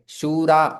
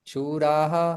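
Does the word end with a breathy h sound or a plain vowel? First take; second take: plain vowel; breathy h. First: The word ends on a plain vowel, no h. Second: The word ends with a breathy h sound.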